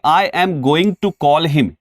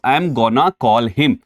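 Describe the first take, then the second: First: The full form 'going to' is said. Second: The reduced form 'gonna' is said. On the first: This is the form used in writing. "ये लिखने की बजाय" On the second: This is the casual spoken form. "आप कह सकते हो"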